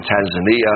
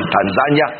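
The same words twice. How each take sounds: First: Said in the usual way. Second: Tanzania said the Swahili way, stress moved onto ZAN; Swahili pronunciation. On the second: Shown as a demonstration. Preacher naming a mission field, Tanzania pronounced as in Swahili. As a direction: say "Tanzania" as Swahili speakers do, ending in a quick "nya". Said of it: "as they say in the Swahili".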